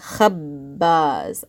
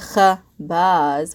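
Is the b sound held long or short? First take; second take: long; short. First: The b sound is held long and doubled. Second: The b sound is short and single. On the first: The speaker calls it right. "I'm pausing on the B sound" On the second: The speaker calls it wrong. "we're not saying khabaz"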